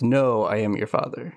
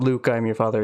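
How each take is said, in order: First: "No" set apart as the corrected word; corrected quote, stressing No. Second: Said in the usual way. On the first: Shown as a demonstration. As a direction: lean on "No", then say the rest evenly. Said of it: "It's, "No, I am your father". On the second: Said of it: "Where it's not".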